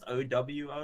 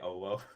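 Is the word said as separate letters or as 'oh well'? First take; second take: letters; oh well. First: It is said as three quick separate letters. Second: It is said as the two words 'oh well'. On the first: "It's pronounced O W O, like you sped it out" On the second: "it started as a joke between me and my friends to say "oh well,""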